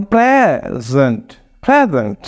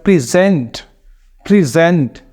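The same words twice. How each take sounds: First: "present" as PREZ-ent, weight on the first syllable; slow demo of the noun "present", long PRE, light zent; first-syllable stress. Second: "present" as pri-ZENT, weight on the second syllable; second-syllable stress. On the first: Teacher shows the gift noun to learners, "present" stressed PREZ-ent. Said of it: "उनका first syllable stress करते हैं". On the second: Teacher shows the verb to learners, "present" stressed pri-ZENT. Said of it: "second syllable को stress करेंगे". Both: Shown as a demonstration.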